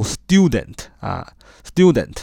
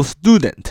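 First: Student with a British "styoo" opening; British pronunciation. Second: Student with an American "stoo" opening; American pronunciation. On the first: Teacher showing learners British English, British pronunciation of student. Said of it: "英音呢读student". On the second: Teacher showing learners American English, American pronunciation of student. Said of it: "美音读student啊". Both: Shown as a demonstration.

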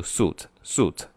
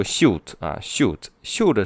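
First: 'suit' said as plain 'soot', no glide; current pronunciation. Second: 'suit' said with a sh-y glide, like 'shyoot'; older pronunciation. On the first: Teacher showing how everyone reads it now, current 'suit' without a y glide. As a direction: say 'suit' with a straight s and oo. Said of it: "现在都是读". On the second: Teacher showing how some students used to read it, older pronunciation of 'suit' as 'shyoot'. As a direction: say 'suit' the old way, as 'syoot'. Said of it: "之前的读法". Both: Shown as a demonstration.

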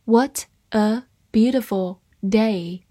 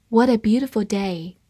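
First: Word by word, with clear gaps; slow reading. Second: Said in the usual way. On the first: Shown as a demonstration. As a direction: read it slowly for learners. (慢慢地逐词朗读) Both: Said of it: "慢慢来读".

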